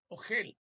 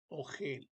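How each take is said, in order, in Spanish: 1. El acento está en la última sílaba. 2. El acento está en la primera sílaba. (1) "no se dice ogel" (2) "se lee ogel"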